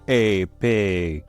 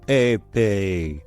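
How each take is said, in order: No difference in how they are said.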